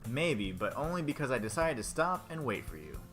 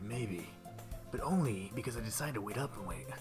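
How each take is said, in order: First: It is read in his plain voice. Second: It is read in a put-on character voice.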